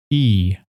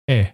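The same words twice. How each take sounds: First: "e" said long, like the "ee" in "ease". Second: "e" said short, like the "e" in "edge". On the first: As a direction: stretch "e" into a long ee. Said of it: "as in ease". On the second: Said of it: "as in edge". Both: Shown as a demonstration.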